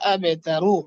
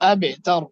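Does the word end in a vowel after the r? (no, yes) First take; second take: yes; no. First: The word ends with a 'u' vowel after r. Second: The word ends on r with no vowel. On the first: The reading continues without stopping. "রা পেশু আবে তারু" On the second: The reader stops at this word. "দম চাললে সাকিন হয়ে যাবে আবে তার"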